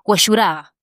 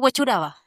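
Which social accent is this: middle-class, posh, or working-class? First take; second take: working-class; middle-class. First: It is said with a working-class Chilean pronunciation. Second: It is said with a middle-class Chilean pronunciation. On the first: The speaker is from a poor neighbourhood. "tú vas a una población humilde y te dicen" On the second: The speaker is from a middle-class area. "en el término medio te dice"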